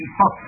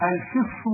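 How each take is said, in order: First: Said in the usual way. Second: الفص with an i, "al-fiss"; kasra variant. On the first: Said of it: "لغة في الفص". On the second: Shown as a demonstration. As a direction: give الفص a short i after the f. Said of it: "بالكسر لغة في الفص".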